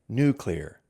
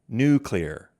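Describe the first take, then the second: First: The word is said as new-clear. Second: The same.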